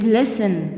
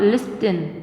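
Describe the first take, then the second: First: The t sound in the middle is silent. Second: The t sound in the middle is pronounced. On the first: The speaker calls it right. "It is listen" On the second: The speaker calls it wrong. "not listen, because T is silent here"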